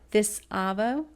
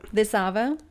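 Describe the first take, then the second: First: The phrase is said slowly and deliberately. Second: The phrase is said at normal speed.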